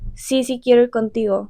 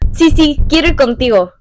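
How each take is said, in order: First: It is said in a serious, flat tone. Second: It is said in an expansive, enthusiastic tone.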